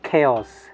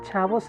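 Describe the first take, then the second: First: It is said like 'chaos' without a v sound. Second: It is said like 'chavos' with a v sound. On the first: The speaker calls it right. "It's chaos" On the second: The speaker calls it wrong. "ചാവോസ് അല്ല"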